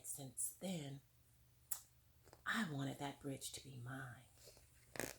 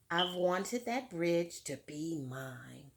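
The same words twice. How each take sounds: First: Hushed quote. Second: Said in the usual way. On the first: Retold or imitated. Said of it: "And she said".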